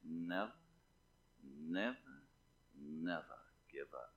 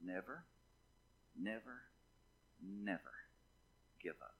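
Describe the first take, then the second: First: Attempted British statesman, very low and soft; Winston Churchill. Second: Low, hushed preacher's own voice, pausing after each never; solemn exhortation. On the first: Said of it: "I've tried to imitate him so many times". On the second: Real, not acted. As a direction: gently urge the congregation, word by word. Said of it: "I'm saying to you from God this morning".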